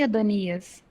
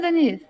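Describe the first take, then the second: First: The name is said fully, every syllable clear. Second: The name is clipped, its first syllable dropped. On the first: The recording system captures it. The speaker calls it right. "então eu tenho que falar" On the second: The recording system will not capture it. The speaker calls it wrong. "que não é verbalizar"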